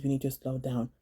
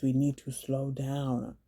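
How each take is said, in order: First: Said in the usual way. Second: "we need to slow down" stretched out at half speed; drawn-out emphasis. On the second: Real, not acted. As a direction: spell out "slow down" slowly for emphasis. Repeated plea, final time drawn out.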